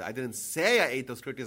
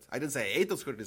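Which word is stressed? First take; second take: say; ate. First: The word say is stressed. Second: The word ate is stressed. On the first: The speaker only thought it. "I might have thought of it" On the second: The speaker did something else to them. "I might have squashed them"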